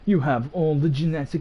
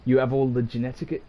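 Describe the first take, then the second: First: It is said in a put-on character voice. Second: It is said in the speaker's normal voice.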